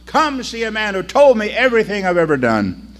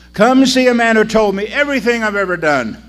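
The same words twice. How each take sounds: First: Calling out loud to the street; shouting. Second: Louder, higher call across the street; shouting. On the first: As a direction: call the whole town to come. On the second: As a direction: call it again, louder and more urgent. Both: Acted. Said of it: "she shouted out".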